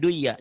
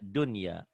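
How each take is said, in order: First: The n sound in the middle is dropped. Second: The n sound in the middle is clearly pronounced. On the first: The speaker calls it wrong. "bukan duya" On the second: The speaker calls it right. "dibacanya jadi idhar"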